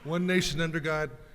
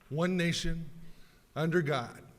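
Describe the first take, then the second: First: It flows straight through with no pause after nation. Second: There is a pause between nation and under God. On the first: It follows the original text of the pledge. "no comma" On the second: It is the habitual way most people were taught to say it. "We insert the comma, we insert the pause"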